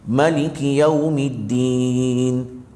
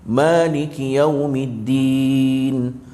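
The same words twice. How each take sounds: No difference in how they are said.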